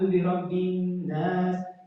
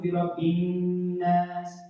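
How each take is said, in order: First: The vowel in 'nas' is drawn out long. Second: The vowel in 'nas' is kept short. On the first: The speaker calls it wrong. "people would normally say" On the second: The speaker calls it right. "it's supposed to be ... It's not a mad"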